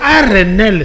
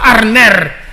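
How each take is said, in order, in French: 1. Le nom se termine par un son l. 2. Le nom se termine par un son r. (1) "Mais non, c'est Arnel" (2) "c'est pas Arner"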